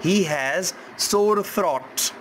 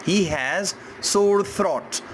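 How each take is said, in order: Both takes have the same delivery.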